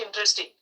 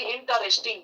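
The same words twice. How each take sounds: First: ইন্টারেস্টিং said the English way, run together as intresting; real pronunciation. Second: ইন্টারেস্টিং read out the way it is spelt, every syllable given; spelling pronunciation of ইন্টারেস্টিং; as it is written. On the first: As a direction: give ইন্টারেস্টিং its true spoken English form, quickly. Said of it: "কিন্তু উচ্চারণ হচ্ছে". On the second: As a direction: sound out ইন্টারেস্টিং letter by letter like the spelling. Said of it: "আমরা লেখার সময় লিখি". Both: Shown as a demonstration.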